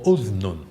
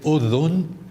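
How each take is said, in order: First: No vowel is heard between dh and n. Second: A vowel is heard between dh and n. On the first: "or just have a sukoon" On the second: "You can add a vowel in that case"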